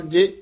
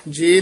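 First: ਜੇ with a short vowel, jajja plus sihari; short, quick ਜੇ. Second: ਜੇ drawn out as a long "jay"; long vowel, mistaken. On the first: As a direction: keep ਜੇ brief, with a short front vowel. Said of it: "ਜੱਜੇ ਸਿਹਾਰੀ ਨਾਲ ਜੇ ਉਚਾਰਨ". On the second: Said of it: "ਨਹੀਂ ਕਹਿਣਾ ਹੈ". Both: Shown as a demonstration.

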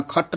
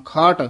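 First: ਖੱਟ with a short vowel and a doubled ਟ; wrong short ਖੱਟ. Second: ਖਾਟ with a long open ਆ, spoken softly. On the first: Teacher showing students the wrong clipped ਖੱਟ. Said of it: "ਨਹੀਂ ਕਹਿਣਾ". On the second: Teacher showing students the right soft ਖਾਟ. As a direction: say ਖਾਟ lightly, with a long vowel. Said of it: "ਖਾਟ ਪੋਲਾ ਹੀ ਬੋਲਣਾ". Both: Shown as a demonstration.

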